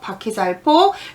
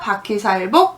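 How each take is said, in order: First: The last syllable begins with an aspirated p sound. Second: The last syllable begins with a plain b sound. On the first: "여기는 폭으로 할게요" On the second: "바퀴살 복도 되고 폭도 됩니다. 발음이 두 개 있습니다"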